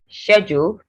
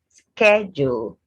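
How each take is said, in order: First: It is said in a British accent. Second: It is said in an American accent. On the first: "for British" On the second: "then Americans go"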